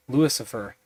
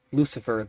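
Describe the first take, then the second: First: LUCIFER said as Louis-ifer; name pun. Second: Said in the usual way. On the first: Shown as a demonstration. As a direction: stretch Lucifer toward "Louis Cypher", LOO-iss-ifer.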